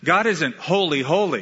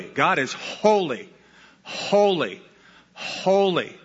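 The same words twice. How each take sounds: First: HOLY, HOLY said as a quick pair; two falling beats on HOLY, run close together; doubled emphasis. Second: HOLY, HOLY, HOLY, slow, each set apart by a pause; three separate falling beats, each HOLY drawn out; tripled emphasis. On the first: Preacher correcting the count, brisk doubled HOLY. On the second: Preacher explaining repetition for force, slow spaced triple HOLY. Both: Shown as a demonstration. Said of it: "It's there for emphasis".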